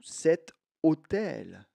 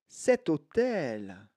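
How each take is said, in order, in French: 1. Le son T est séparé du mot suivant. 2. Le son T s'enchaîne directement avec le mot suivant. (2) "je peux faire la liaison"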